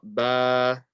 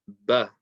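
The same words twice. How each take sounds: First: The vowel is stretched and drawn out. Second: The vowel is short and not drawn out. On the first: The speaker calls it wrong. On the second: The speaker calls it right.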